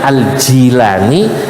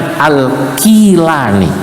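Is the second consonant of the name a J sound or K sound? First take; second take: J sound; K sound. First: The name is said with a J sound. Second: The name is said with a K sound. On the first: "dibaca Al-Jilani bil jim" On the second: "dibaca dengan Al-Kilani"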